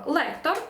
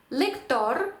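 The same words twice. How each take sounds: First: Said in the usual way. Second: Spanish «лектор», lek-TOR; final-syllable stress. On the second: Shown as a demonstration. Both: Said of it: "останній склад".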